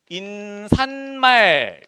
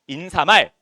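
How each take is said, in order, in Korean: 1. 'mal' 앞에 n 소리가 덧붙어요. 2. 'mal' 앞에 n 소리가 덧붙지 않아요. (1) "니은이 덧났다" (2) "이게 표준 발음이에요"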